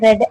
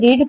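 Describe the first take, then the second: First: The vowel is short, like 'red'. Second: The vowel is long, like 'reed'. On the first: The speaker calls it right. "जब इसको pronounce करते हैं तो हम इसको रेड बोलते हैं" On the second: The speaker calls it wrong. "इसे रीड पढ़ते बहुत लोग"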